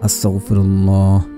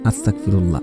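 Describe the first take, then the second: First: Every sound of the word is pronounced carefully. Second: The sounds of the word are slurred together. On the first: The speaker calls it right. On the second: The speaker calls it wrong.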